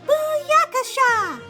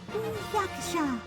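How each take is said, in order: First: It is shouted loudly. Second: It is said a little louder, moderately.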